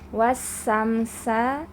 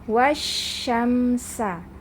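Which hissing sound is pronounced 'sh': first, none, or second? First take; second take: none; first. First: Both hissing sounds are a plain 's'. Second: The first is 'sh', the second is 's'. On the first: The speaker calls it wrong. "jangan sampai dibaca wasamsa" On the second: The speaker calls it right. "tapi membacanya wasyamsa"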